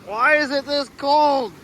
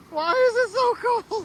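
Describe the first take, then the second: First: Cold and grumbling. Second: High, slow shivery complaint about the cold; cold and grumbling. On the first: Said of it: "Yeah, it ain't warm". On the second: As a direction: whine through the chill of the water. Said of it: "it's cold". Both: Real, not acted.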